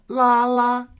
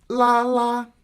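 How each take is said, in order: Both takes have the same delivery.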